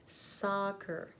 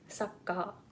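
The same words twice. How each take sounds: First: The first vowel is a long, open ah. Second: The first vowel is a short, neutral uh. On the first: The speaker calls it right. "Soccer, slowly, and say soccer" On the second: The speaker calls it wrong. "not soccer"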